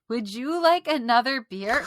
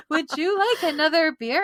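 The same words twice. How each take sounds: First: Forced sweet, a bit higher and louder; fake nice voice. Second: Sugary, much higher and louder; sing-song forced niceness; fake nice voice. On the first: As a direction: put on an overly polite voice. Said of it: "I had to use the fakest voice ever". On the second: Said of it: "How do I speak nice?".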